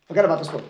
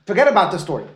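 First: Said in the usual way. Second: Firm insistence on Forget; emphatic repeat. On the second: Shown as a demonstration. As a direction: lean hard on Forget to cut off the side question.

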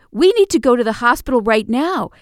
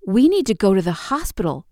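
First: Louder, higher, pressing the point; urgent insistence. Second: Said in the usual way. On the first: Retold or imitated. Girlfriend insisting her hurt partner go to hospital, urgently. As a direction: repeat it with more force and alarm.

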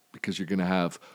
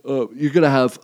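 First: Said in the usual way. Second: Talking mid-yawn. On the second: Real, not acted. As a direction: yawn stretching the words. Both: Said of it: "I'm yawning".

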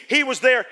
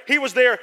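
No difference in how they are said.

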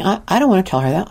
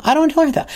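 First: Said in the usual way. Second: Much higher, dreading the words; anxious high repeat. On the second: Retold or imitated. Dreading telling the mom about her daughter, high anxious voice. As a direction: say it again, pitched up in worry. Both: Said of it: "And I'm thinking".

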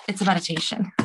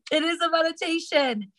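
First: Said in the usual way. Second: Higher, amazed insistence; can you believe it, laughing it off; amused disbelief. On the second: Real, not acted. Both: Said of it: "I'm not even kidding".

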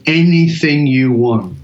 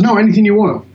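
First: Said in the usual way. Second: "anything" pitched higher and pushed; "No, anything you want" lifted high to insist; insistent repeat. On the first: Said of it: "And he goes". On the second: Retold or imitated. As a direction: press "anything" like you mean it. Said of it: "He goes".

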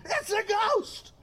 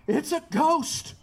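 First: High, strained, drawn-out mock shriek; mock scream. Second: Higher, drawn-out cry of alarm; mock cry of fear. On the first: Preacher acting out terrified disciples seeing a ghost, mock scream. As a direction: scream it in pretend terror without much volume. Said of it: "they even screamed". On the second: Preacher voicing the frightened disciples, mock cry of fear. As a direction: cry it out slowly, pitch lifted. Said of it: "they cried out".

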